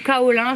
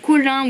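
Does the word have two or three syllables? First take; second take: three; two. First: The word is said in three syllables. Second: The word is said in two syllables. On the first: "ou kaolin" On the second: "Je sais pas si ça se dit colin"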